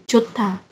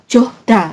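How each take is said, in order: First: The middle consonant is a T sound. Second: The middle consonant is a D sound. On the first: The speaker calls it right. "melebur ke sini jadi Jota" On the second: The speaker calls it wrong. "bukan Johda"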